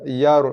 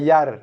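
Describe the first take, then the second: First: The r is thick and heavy. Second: The r is thin and light. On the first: The speaker calls it right. "Tebalkan sikit yar" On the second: The speaker calls it wrong. "kalau yar tu ra nipis"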